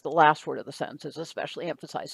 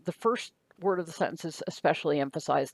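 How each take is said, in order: First: "last" stressed, the rest quick. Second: "first" stressed, the rest quick. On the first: Teacher contrasts for students, hitting "last". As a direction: lean on "last", run through the rest fast. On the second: Teacher explains emphasis to students, hitting "first". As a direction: lean on "first", run through the rest fast. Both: Shown as a demonstration. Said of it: "emphasize the word".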